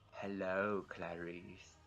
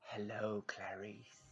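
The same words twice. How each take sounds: First: It is a more exaggerated, creepier Hannibal Lecter voice. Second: It is a mildly creepy Hannibal Lecter voice.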